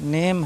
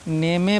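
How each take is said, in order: First: The word ends on the m sound. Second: A vowel sound is added after the final m. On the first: The speaker calls it right. "Word के last में कहीं भी ई आ जाए silent होता है" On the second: The speaker calls it wrong. "नेमे पढ़ेंगे या नामे पढ़ेंगे"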